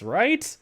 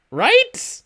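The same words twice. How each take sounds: First: Said in the usual way. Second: Much higher, louder insistent rise on Right; disbelieving, demanding Right; incredulous right. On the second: Real, not acted. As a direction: pitch Right way up and push it. Insistent repeat of the question.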